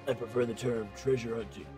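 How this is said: It is said in a put-on gruff voice.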